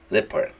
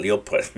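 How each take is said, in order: First: Leopard said LEP-ard, no O sound; right leopard. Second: Leopard said le-O-pard, sounding the O; wrong leopard. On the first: Teacher modelling the right way, correct leopard. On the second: Teacher mocking the common mistake, wrong leopard. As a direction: say leopard with a spelled-out O. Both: Shown as a demonstration. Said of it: "No digan leopard".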